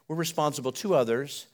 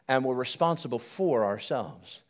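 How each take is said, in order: First: "to" picked out, with a slight lift at the end; stress on TO. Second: "for" set apart as the key word, voice dropping at the end; stress on FOR. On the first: Preacher contrasting two duties for the church, stress on "to". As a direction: lean on the word "to". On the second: Preacher completing the contrast of two duties, stress on "for". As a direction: lean firmly on the word "for", falling after it. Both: Shown as a demonstration.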